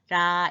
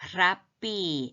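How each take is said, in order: First: The first sound is plain, without extra breath. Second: The first sound has an added breathy throat sound. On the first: The speaker calls it wrong. "라 이러지 마시고" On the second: The speaker calls it right. "후음을 좀 넣어서 발음해야 돼요"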